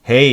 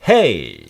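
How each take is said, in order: First: The pitch stays low and flat throughout. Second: The pitch is raised high and moves like a wave. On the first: The speaker calls it wrong. "한국 사람은 그냥 쭉 말하는 경향이 있어요. 수평선으로" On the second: The speaker calls it right. "음 높이를 원어민 높이에 맞춰서 끌어올린다"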